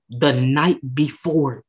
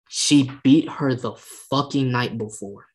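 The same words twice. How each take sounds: First: The night before slowed and hammered, each word weighted; stress on The night before. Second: Said in the usual way. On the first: Shown as a demonstration. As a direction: drag out The night before for emphasis.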